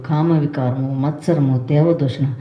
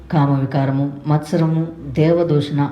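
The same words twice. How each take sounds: Both takes have the same delivery.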